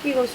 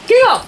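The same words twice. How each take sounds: First: The call is said softly. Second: The call is said loudly.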